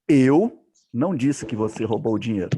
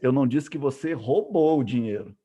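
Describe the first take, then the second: First: The word eu is stressed. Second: The word roubou is stressed. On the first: Someone else said it. "Alguém que falou" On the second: The money was borrowed, not stolen. "eu estou dizendo que você fez, pegou emprestado"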